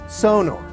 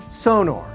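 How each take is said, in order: First: The stress is on the first syllable. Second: The same.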